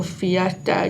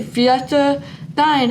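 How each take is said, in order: First: Said in the usual way. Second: Slow, higher "Fiesta Dine"; slow sign name. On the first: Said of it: "you're just gonna go in a circle". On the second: Shown as a demonstration. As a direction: draw it out as a sign-off. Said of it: "that's all for today".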